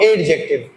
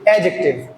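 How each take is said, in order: First: The d sound is clearly pronounced. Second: The d sound is silent or barely heard. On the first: The speaker calls it wrong. "not adjective" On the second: The speaker calls it right. "D is silent here, so it's slightly or slightly pronounced. It is adjective"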